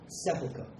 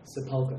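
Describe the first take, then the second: First: The stress is on the first syllable. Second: The stress is on a later syllable. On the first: The speaker calls it right. "emphasis is on the first syllable" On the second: The speaker calls it wrong. "a mispronunciation among many BP youth in Singapore"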